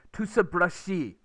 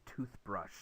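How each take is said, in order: First: "toothbrushi" in five syllables, tu-seu-beu-reo-shi, higher and louder; Konglish pronunciation. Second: Said in the usual way. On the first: Shown as a demonstration. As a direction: stretch "toothbrushi" slowly with extra vowels, S for TH. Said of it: "you make it five syllables".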